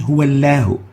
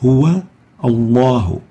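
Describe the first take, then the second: First: The L sound is light and thin. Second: The L sound is heavy and thick. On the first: The speaker calls it wrong. "We don't say huwallahu" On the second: The speaker calls it right. "Notice that the lam is having tafkhim"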